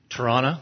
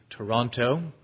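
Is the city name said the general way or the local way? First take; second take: local; general. First: The name is said the way locals say it. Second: The name is said the general, non-local way.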